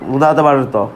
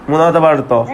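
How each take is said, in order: The two takes are said the same way.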